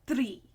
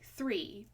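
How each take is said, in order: First: The word is said in an Indian accent. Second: The word is said in a plain accent. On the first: "they say three. It's a, a tree" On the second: "when they say three"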